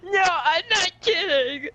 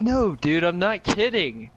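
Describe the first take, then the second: First: Very high, slow, strained cry; panicked insistence. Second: Slow, higher-pitched insisting; earnest insistence. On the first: Friend insisting the zombies are real, panicked. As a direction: wail it out in mock panic. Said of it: "you say it like that". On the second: Friend insisting the zombies are real, earnest. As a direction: insist with drawn-out words. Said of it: "Wait, no, you're like". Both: Acted.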